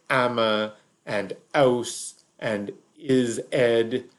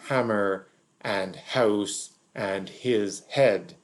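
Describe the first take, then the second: First: The h sound at each word start is dropped. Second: The h sound at each word start is pronounced. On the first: The speaker is lower working class. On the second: The speaker is middle class.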